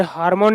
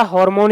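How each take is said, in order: First: हार्मोन said with a long "aa", "HAAR-mon"; common mispronunciation. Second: हार्मोन said with an "o" first, "HOR-mon"; correct pronunciation. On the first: Teacher showing students the wrong form, हार्मोन with "aa". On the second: Teacher correcting students' pronunciation, हार्मोन as "hor-mon". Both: Shown as a demonstration. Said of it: "इसका pronunciation ऐसे ही किया जाता है".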